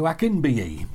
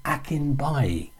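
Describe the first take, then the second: First: Akinbiyi said ak-in-BEE-yee, the wrong way; wrong name. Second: Akinbaye said ak-in-BYE, slow and careful; correct name. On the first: Retold or imitated. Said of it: "Yorkshire twist or not". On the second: Shown as a demonstration. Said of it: "It's Akinbaye".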